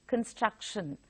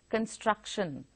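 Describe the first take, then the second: No difference in how they are said.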